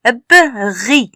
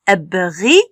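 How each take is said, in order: First: "Ep" and "ri" split by a pause; syllabes séparées. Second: "Ep, ri" blended with no pause; syllabes liées. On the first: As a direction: sound out "Ep", pause, then "ri". (« Ep, ri » en deux morceaux séparés) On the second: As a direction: run "Ep" straight into "ri". (« Ep, ri » enchaîné d'un seul trait) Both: Shown as a demonstration. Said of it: "R I se lit ri".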